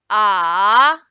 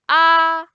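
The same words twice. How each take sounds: First: The pitch dips low, then rises. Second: The pitch stays high and level. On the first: "the third tone is going down, then going up" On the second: "the first one is flat. ... It's flat and high"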